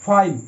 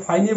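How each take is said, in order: First: ফাইন as one syllable, closing on the n; silent final E. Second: ফাইনে with an extra "eh" syllable at the end; final E sounded. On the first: Teacher gives students the right Fine, ফাইন ending on n with E silent. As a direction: say ফাইন with no vowel after the n. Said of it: "এটা বলবো". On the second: Teacher shows students how not to say Fine, ফাইনে with the final E voiced as "eh". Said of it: "so এটাকে ফাইনে বলবো না". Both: Shown as a demonstration.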